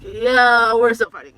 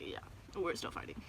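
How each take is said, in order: First: Louder, blunt and exasperated; louder insistence. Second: Hushed, resigned whisper. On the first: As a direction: insist loudly that you're still fighting. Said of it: "And I'm just like". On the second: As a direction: say it under your breath, defeated. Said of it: "I was like". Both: Retold or imitated.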